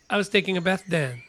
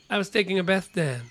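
No difference in how they are said.

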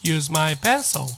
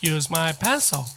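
Both takes have the same delivery.

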